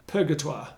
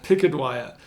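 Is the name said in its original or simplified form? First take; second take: original; simplified. First: The name is said in its full original form. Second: The name is said in a simplified form.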